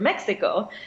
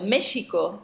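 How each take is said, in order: First: The middle consonant is not a 'sh' sound. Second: The middle consonant is a 'sh' sound. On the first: This is the usual modern pronunciation. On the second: This is the original native pronunciation.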